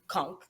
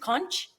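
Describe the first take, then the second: First: It is said the Caribbean way. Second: It is said the non-Caribbean way. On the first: The speaker calls it right. "but it's conch" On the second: The speaker calls it wrong. "Non-Caribbean people would say pronounce it as conch"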